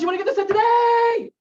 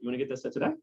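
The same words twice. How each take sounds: First: It is asked in a pushy, demanding way. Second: It is asked in a casual, relaxed way.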